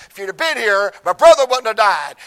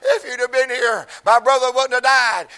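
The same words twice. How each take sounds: First: It sounds confrontational and accusing, like Martha. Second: It sounds heartbroken and tearful, like Mary.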